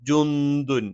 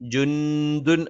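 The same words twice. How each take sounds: First: The n sound is hidden and nasalized. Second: The n sound is pronounced clearly and fully. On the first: The speaker calls it right. "നൂനിനെ അവ്യക്തമാക്കി മണിച്ച് ഉച്ചരിക്കണം" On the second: The speaker calls it wrong. "ജുന്ദുൻ എന്ന് പറയാൻ പാടില്ല"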